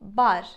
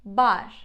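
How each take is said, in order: First: The r is a soft, light Turkish r. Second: The same.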